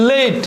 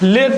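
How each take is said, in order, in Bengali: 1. স্বরটি 'ay'-এর মতো গড়িয়ে যায়। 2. স্বরটি একটি সাধারণ, ছোট 'eh' ধ্বনি। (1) "হয়েছে লেট" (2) "লেট নয়"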